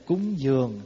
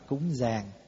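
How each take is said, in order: First: The second syllable has an 'uo' vowel. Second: The second syllable has an 'a' vowel. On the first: "mình nói cúng dường" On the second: "ngoài Bắc là cúng giàng"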